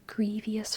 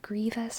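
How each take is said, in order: First: The word is said with an extra sound added. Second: The word is said with no extra sound. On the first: The speaker calls it wrong. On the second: The speaker calls it right.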